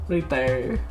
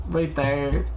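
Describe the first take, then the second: No difference in how they are said.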